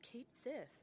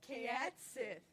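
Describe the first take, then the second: First: The first word is one syllable, like Kate. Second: The first word is two syllables, like Kayat. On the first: The speaker calls it right. "It's one hundred percent Kate" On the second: The speaker calls it wrong. "pronouncing it as Kayat"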